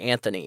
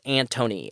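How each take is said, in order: First: The middle consonant is a 'th' sound. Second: The middle consonant is a plain 't' sound. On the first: The speaker calls it wrong. "I want to say Anthony or Anth" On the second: The speaker calls it right. "but it's Antony, A N T O N Y"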